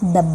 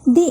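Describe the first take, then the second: First: The vowel is a short 'uh' sound. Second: The vowel is a long 'ee' sound. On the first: "consonant സൗണ്ടിൻ്റെ കൂടെ നമ്മൾ ദ എന്ന് pronounce ചെയ്യണം" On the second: "vowel സൗണ്ട്സിൻ്റെ കൂടെയാണ് നമ്മൾ ദി എന്ന് pronounce ചെയ്യുന്നത്"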